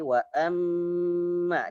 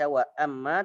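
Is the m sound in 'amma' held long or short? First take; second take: long; short. First: The doubled m is held for two beats. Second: The doubled m is clipped short. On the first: The speaker calls it right. "tapi wa amma ditahan dua harokat" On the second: The speaker calls it wrong. "tidak dibaca wa amma"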